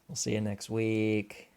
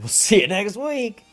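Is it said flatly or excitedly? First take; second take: flatly; excitedly. First: It is said in a flat, low-energy way. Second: It is said in an excited, high-energy way.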